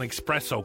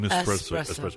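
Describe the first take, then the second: First: The word starts with an ex sound. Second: The word starts with an es sound. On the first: The speaker calls it wrong. "people say espresso. I'll have an espresso coffee instead of" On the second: The speaker calls it right. "instead of an espresso"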